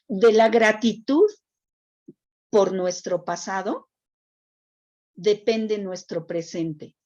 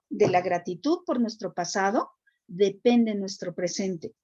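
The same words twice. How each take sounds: First: It is said slowly. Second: It is said at normal speed.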